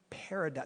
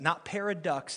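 First: It is said as the ordinary word paradox. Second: It is said to sound like 'pair of ducks'. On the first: The speaker calls it right. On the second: The speaker calls it wrong.

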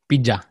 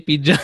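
First: It is said in a New Zealand accent. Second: It is said in an Indian accent.

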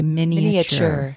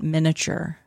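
First: The middle a vowel is clearly sounded. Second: The middle a vowel is left out. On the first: The speaker calls it right. "You have to say the A" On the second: The speaker calls it wrong. "Not miniature. There's an A"

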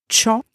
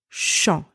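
First: It begins with a t-like ch sound. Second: It begins with a soft sh sound. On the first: The speaker calls it wrong. "that's incorrect" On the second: The speaker calls it right. "That's correct"

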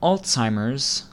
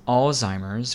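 First: The first syllable is 'all' followed by 'ts'. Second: The first syllable is 'alz', with no t sound. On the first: The speaker calls it right. "like the word all followed by the TZ sound" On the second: The speaker calls it wrong. "without the T sound"

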